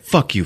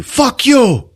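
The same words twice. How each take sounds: First: Said in the usual way. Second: Much higher, louder yell; angry shout. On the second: Retold or imitated. Two men fighting on the ground, acted angry shout. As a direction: imitate a fighter escalating to a yell.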